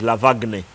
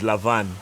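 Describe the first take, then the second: First: The name is said as local Luganda radio says it. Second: The name is said as he was told it sounds. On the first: This is how local radio presenters say it. "if you listen to Luganda radio like I do, his name is going to be pronounced as" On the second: This is how the name is actually said. "they told me the name is"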